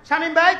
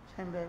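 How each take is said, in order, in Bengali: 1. এটি খুব জোরে, প্রায় চিৎকার করে বলা হয়। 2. এটি স্বাভাবিক, আস্তে গলায় বলা হয়।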